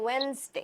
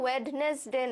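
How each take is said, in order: First: The middle d sound is left silent. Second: The middle d sound is pronounced clearly. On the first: The speaker calls it right. "এটা হচ্ছে গিয়ে ওয়েনসডে" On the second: The speaker calls it wrong. "এটা ওয়েডনেসডে না"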